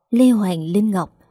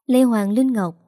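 First: Name savoured slowly, "Lê Hoàng Linh Ngọc" drawn out; turning the name over slowly; slow musing. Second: Said in the usual way. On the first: A narrator's reading. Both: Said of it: "Trong lòng cậu tự nhủ".

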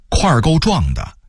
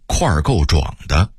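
First: Said in the usual way. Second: 块儿够壮的 with 壮 as zhuǎng; dipping third tone on 壮 in 块儿够壮的; Beijing reading. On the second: Shown as a demonstration. Narrator contrasting word lists, Beijing reading. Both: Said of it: "北京话说块儿够壮的".

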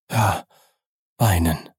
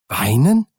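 First: Said in the usual way. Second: Startled question, swooping upward; aghast, rising sharply at the end; horrified cry. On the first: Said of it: "sagte der Diener". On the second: A narrator's reading. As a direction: exclaim it in shocked disbelief. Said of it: "rief der Advokat mit Entsetzen".

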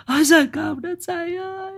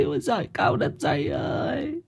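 First: Very high, piercing shriek of grief; wailing cry. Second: High wail sinking to a soft moan; wailing cry.

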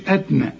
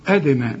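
First: أدنى with a dead, unreleased d; dal without qalqala. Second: أدنى with a bouncing echo after the d; qalqala on dal. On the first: Teacher shows what not to say, أدنى without the bounce. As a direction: run d straight into n in أدنى. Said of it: "ما تقولش أدنى". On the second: Teacher shows the rule, أدنى with bounced dal. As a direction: release the d of أدنى, "ad-e-na". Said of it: "سكون قلقلها". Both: Shown as a demonstration.

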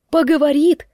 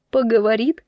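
First: Louder, higher incredulous echo; loud disbelieving question; alarmed question. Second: Mildly incredulous echo with a rise; first, milder startled question; doubtful question. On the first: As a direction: push the question up in rising alarm. Repeats his words, more alarmed. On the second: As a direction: query it in disbelief, still contained. Repeats his words in alarm. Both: Acted.

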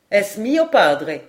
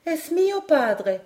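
First: Said in the usual way. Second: Voix d'enfant douce, haute et lente. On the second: A narrator's reading. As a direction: dire tendrement, lentement, dans l'aigu. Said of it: "dit d'une voix douce". (doux, aigu et lent)

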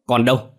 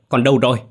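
First: Loud, higher desperate cry; panicked yell; frantic shout. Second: Louder and higher, building panic; desperate screaming question; louder frantic shout. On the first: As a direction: yell asking where the child is. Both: Acted. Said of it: "hét lên".

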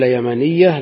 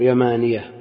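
First: "يمانية" said as yamaniyya, short a and double ya; doubled ya. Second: "يمانية" with long aa, then a single light ya. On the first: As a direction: press and hold the ya in "يمانية". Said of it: "تعين التشديد". ("يمانية" تُنطق بياء مشددة) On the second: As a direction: keep the ya of "يمانية" undoubled. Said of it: "فاقتضى تخفيفه". ("يمانية" بياء مخففة) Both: Shown as a demonstration.

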